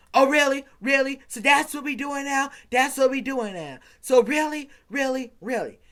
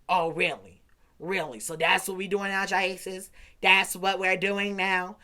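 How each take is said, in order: First: High, loud mock indignation; mocking the girlfriend. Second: Said in the usual way. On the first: Teen mimics his girlfriend's outraged reply, high and loud. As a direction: parrot her offended "really" back, hammed up. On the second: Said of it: "she goes".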